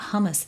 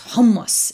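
First: The word is said flatly, without force. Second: The word is said forcefully, with gusto. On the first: The speaker calls it wrong. "it's not hummus" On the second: The speaker calls it right. "it needs gusto"

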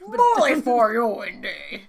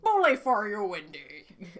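First: The line is said at a louder volume. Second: The line is said at a quieter volume. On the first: The speaker calls it right. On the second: The speaker calls it wrong.

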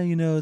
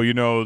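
First: The voice is higher pitched. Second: The voice is lower pitched. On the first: The speaker calls it right. "He a little more higher pitched" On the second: The speaker calls it wrong. "he probably didn't sound like that"

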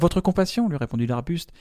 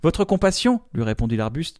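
First: The narrator's part runs on plainly from the quote. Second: The narrator's part is split off as an aside.

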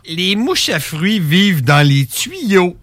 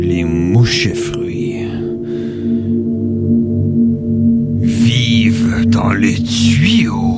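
First: It is said in a plain, neutral tone. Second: It is said in a scary, ominous tone.

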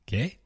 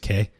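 First: It is said as a question. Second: It is said as a plain word.

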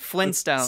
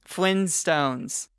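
First: The word is said at normal speed. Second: The word is said slowly. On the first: "I'll say it again" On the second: "Say it slowly"

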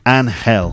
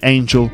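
First: The middle consonant sounds like an h, as in hell. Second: The middle consonant sounds like the j in jam. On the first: The speaker calls it right. "it's actually pronounced Angel, with the word hell in there" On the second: The speaker calls it wrong. "I was saying angel, like an angel from heaven"

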